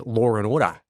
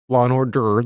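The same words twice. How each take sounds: First: "Law and Order" as "Lawr and Ordah"; Australian switched R. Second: Said in the usual way. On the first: Shown as a demonstration. Host recalling trip to Australia, "Law and Order" as "Lawr and Ordah". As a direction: add R after "Law", drop it from "Order". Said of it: "they say Law and Order". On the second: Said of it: "instead of Law and Order".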